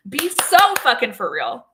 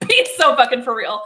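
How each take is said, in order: First: Slow, each word leaned on, louder; slow emphatic disbelief. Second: Louder, laughing through the words; laughing disbelief. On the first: To her viewers about the cheeseburger man, slow exasperated emphasis. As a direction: drag it out in flat disbelief. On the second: Mocking the man with laughter, louder. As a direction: crack up at the absurdity. Repeating her punchline, now laughing. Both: Real, not acted.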